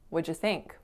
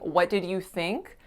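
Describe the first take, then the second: First: 'What did you' is squeezed into 'whatja'. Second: Each word of 'what did you' is said separately. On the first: "A ton of native speakers are going to say" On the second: "instead of saying"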